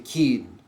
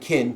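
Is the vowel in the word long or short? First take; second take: long; short. First: The vowel is drawn out and long. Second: The vowel is short and clipped. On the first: This is how it was said in the Middle Ages. "the vowels tended to be lengthened out" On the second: This is how it is said today. "instead of saying"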